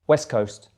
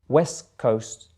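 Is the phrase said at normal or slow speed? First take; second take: normal; slow. First: It is said at normal speed. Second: It is said a little more slowly. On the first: "then at normal speed again" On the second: "the second time a little bit slower"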